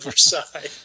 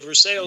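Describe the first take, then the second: First: It is said a non-local, outsider way. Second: It is said the local Kentucky way. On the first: This is how an outsider said it. The speaker calls it wrong. "she said Versailles" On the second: This is how people here say it. The speaker calls it right. "we say Versailles here in Kentucky"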